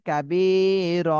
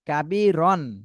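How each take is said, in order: First: The word ends with a lengthened vowel, no n. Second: The word ends with a short vowel and n. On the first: The speaker calls it right. "এইভাবে পড়তে হবে" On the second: The speaker calls it wrong. "কাবি রন ছিল কিন্তু রন আর বলা যাবে না"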